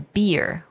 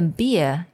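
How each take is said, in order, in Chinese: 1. 结尾的R音清楚地发了出来。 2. 结尾的R音被省略了。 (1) "我们通常如果有美式发音的话" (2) "我们那个R 的这个音就不要把它发出来"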